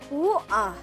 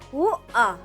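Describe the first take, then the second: First: The T and R sounds are dropped. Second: The same.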